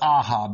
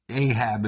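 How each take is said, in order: First: The name is said with a Hebrew pronunciation. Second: The name is said with an American pronunciation. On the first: The speaker calls it right. "That's how you pronounce it in Hebrew" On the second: The speaker calls it wrong. "the way Americans wrongly say it"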